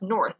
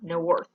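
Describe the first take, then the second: First: Said in the usual way. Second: "no worth" as north broken into two syllables; wrongly split syllables. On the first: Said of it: "it's not no worth". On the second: Shown as a demonstration. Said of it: "It's just north".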